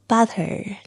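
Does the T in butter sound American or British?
American. The T is said the American way. The speaker calls it wrong. "你不能说 butter"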